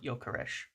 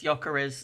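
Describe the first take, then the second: First: The name ends with an sh sound. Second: The name ends with a plain s sound. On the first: The speaker calls it wrong. "not Jokeresh" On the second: The speaker calls it right. "it's Jokeres"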